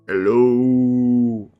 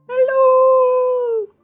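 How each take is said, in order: First: It is said in a deep baritone. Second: It is said in a high falsetto.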